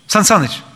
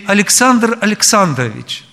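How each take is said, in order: First: The name is clipped into a short form. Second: The full name is said clearly and unhurriedly. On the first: It is casual and lacks that respect. The speaker calls it wrong. "Это совсем не то. Вот, сокращенно там" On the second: It shows respect to the person addressed. The speaker calls it right. "проговорить имя, отчество надо четко и не спеша"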